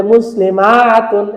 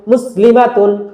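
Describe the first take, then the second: First: "মুসলিমাতুন" with the ma wrongly stretched long, "maaa-tun"; mistaken drawn-out vowel. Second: "মুসলিমাতুন" with the ma kept short; correct short vowel. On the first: Teacher imitating pupils' mistake, over-stretched ma in "মুসলিমাতুন". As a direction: drag out the ma in "মুসলিমাতুন". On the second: Teacher modelling for the class, short ma in "মুসলিমাতুন". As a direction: say "মুসলিমাতুন" without stretching the ma. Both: Shown as a demonstration. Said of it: "এরকম টান টান দিয়ে ফেলবে ভুল করে".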